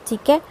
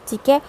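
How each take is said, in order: Both takes have the same delivery.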